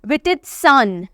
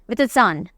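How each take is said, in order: First: वितित्सान said slowly, syllable by syllable; वितित्सान pronounced slowly and clearly; careful pronunciation. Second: वितित्सान said once more, quicker; वितित्सान run together fast; quick recap of वितित्सान; quick repeat. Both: Shown as a demonstration. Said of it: "इसको कैसे pronounce करेंगे?".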